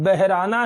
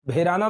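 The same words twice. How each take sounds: First: "बहराना" slower, with h as its own sound; correct pronunciation. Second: "भेराना" with b and h fused into bhe; wrong local pronunciation. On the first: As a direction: say "बहराना" as beh-raa-naa. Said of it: "है शब्द". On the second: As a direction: say "भेराना" as three syllables, bhe-raa-naa. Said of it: "कोई शब्द नहीं है". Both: Shown as a demonstration.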